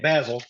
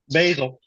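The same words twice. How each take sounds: First: It is said with a British pronunciation. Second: It is said with an American pronunciation.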